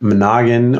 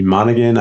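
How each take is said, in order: First: Monaghan as muh-NAH-gun; second-syllable stress. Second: Monaghan as MAH-nuh-gun; first-syllable stress. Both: Shown as a demonstration. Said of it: "pronounce your last name".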